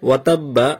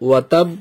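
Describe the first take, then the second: First: The word ends with a doubled b and vowel. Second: The word stops on a final b sound. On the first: The reading continues without stopping. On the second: The reader stops at this word.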